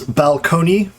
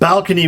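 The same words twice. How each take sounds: First: Balcony is said the historical prestige way. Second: Balcony is said the historical low-class way. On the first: This was the high-status way to say it. "the prestige pronunciation was balcony" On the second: This was the low-status way to say it. "was considered the the sort of the low class pronunciation"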